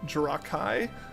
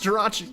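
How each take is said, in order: First: The last syllable sounds like kai. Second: The last syllable sounds like chee. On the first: The speaker calls it wrong. "but the chi is pronounced Kai" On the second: The speaker calls it right. "no, it's Jirachi"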